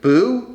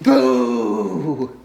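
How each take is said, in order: First: It is said plainly, not scary. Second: It is said in a scary way.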